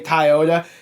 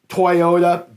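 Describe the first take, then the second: First: It is said in the speaker's regional accent. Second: It is said in the standard common pronunciation. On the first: The speaker calls it wrong. "natural for me is to say Toyota" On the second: The speaker calls it right. "Yes, it is uh, Toyota"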